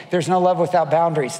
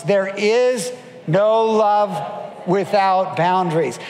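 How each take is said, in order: First: Said in the usual way. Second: Each word stretched out, "IS" and "NO" held long; slow emphatic repetition. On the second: Shown as a demonstration. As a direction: lead a crowd to repeat it, slowly. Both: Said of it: "Maybe repeat it after me".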